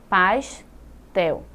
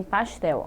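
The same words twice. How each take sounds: First: "Pastel" as pas, pause, tel; split into syllables. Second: Said in the usual way. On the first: Shown as a demonstration. Teacher dividing the word, "Pastel" in two syllables. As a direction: break "Pastel" between s and t. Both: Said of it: "se você for dividir pastel".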